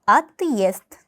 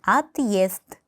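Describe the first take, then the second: No difference in how they are said.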